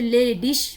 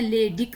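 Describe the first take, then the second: First: The word ends with a soft 'ish' sound. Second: The word ends with a hard 'ik' sound. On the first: "ले डिश भी कहते हैं" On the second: "ले डिक भी कहते हैं"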